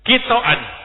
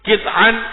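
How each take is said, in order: First: A vowel follows the t sound. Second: No vowel follows the t sound. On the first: This is one recognized reading of the word. "Bifathit ta'i" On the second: This is another recognized reading of the word. "Kalau toknya disukun"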